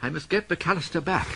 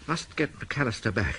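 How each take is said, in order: First: Said in the usual way. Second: Quieter, lower repeat to himself; muttered to himself. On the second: Acted. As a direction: sink into a low murmur.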